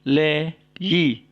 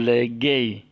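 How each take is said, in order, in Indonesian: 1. Suku kata kedua diawali bunyi y. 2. Suku kata kedua diawali bunyi g keras. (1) "tapi le yi"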